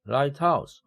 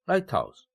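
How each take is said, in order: First: The stress falls on the second word, house. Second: The stress falls on the first word, light. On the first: It means a bright house. "lighthouse 하면은 밝은 집이에요" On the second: It means a tower that guides ships. "이것은 등대입니다"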